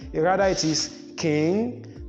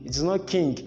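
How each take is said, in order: First: The ng is said as one eng nasal sound. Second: The ng is not said as the eng sound. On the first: The speaker calls it right. "both letters are to be realized as the eng" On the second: The speaker calls it wrong.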